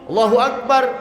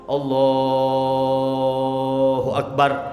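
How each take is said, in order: First: It is said very quickly. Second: It is drawn out for too long. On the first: "Cepet banget takbirnya" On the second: "itu kepan kepanjangan"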